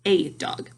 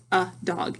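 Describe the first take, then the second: First: "a" said ay, rhyming with day; "a" as letter name. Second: "a" said as a schwa, uh, before dog. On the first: Teacher showing the other sound, "a" said ay. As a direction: say "a" as the long letter name before dog. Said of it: "instead of I have an". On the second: Teacher showing a sight word, "a" said uh. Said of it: "Sometimes we say uh". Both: Shown as a demonstration.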